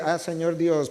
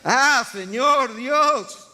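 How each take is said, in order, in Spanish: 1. Se dice con calma, sin urgencia. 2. Se dice con desesperación, con una urgencia intensa. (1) "No, así no" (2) "Escucha cómo suena el clamor de una persona que está desesperada"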